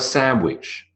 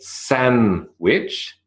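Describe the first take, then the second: First: No consonant links the two syllables. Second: An n sound links the two syllables. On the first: "or nothing at all" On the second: "you have a N"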